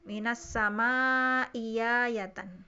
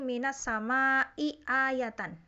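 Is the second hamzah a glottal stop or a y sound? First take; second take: y sound; glottal stop. First: The second hamzah becomes a y sound. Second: The second hamzah is a glottal stop. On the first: "diibdal hamzah kedua menjadi ya" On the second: "hamzah pertamanya kasroh, hamzah keduanya fathah"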